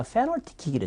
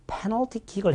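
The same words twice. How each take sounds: First: 페널티 as "fenalty"; mispronounced 페널티, f for p; p swapped for f. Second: 페널티 with a p at the start; correct p. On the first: Retold or imitated. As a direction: imitate the slip, starting 페널티 with f. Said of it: "누가 페널티 킥이래". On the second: Shown as a demonstration. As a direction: pop the p of 페널티. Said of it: "해야 되는데".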